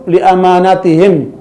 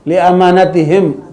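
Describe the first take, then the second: First: The middle vowel of amanatihim is kept short. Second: The middle vowel of amanatihim is kept short.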